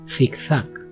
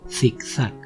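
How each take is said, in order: First: The first consonant sounds like English th. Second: The same.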